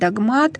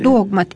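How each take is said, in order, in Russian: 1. Ударение на втором слоге. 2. Ударение на первом слоге. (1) "часто говорят «догмат»" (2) "ударение падает на первый слог"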